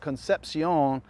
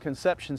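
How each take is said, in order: First: The name is pronounced with Spanish sounds. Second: The name is pronounced with English sounds.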